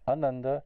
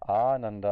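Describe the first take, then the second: First: The first vowel is short. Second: The first vowel is long. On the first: It means joyless. "Ananda means joyless" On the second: It means pure bliss. "that one little extra meter of rhythm in the beginning there, the ah versus a, it turns joyless into blissness"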